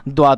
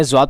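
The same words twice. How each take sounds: First: "द्वाद" said with a d sound, as in Arabic; Arabic pronunciation. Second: "ज्वाद" said with a z sound, as in Urdu; Urdu pronunciation. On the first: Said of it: "Arabic में द्वाद पढ़ते हैं". (अरबी उच्चारण में "द्वाद", द की आवाज़ के साथ) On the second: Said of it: "Urdu में ज्वाद पढ़ते हैं". (उर्दू उच्चारण में "ज्वाद", ज़ की आवाज़ के साथ) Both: Shown as a demonstration.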